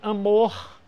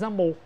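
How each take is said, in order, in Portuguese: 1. O R final é claramente aspirado. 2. O R final não é aspirado. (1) "Eu aspirei o R" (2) "normalmente você diz amor"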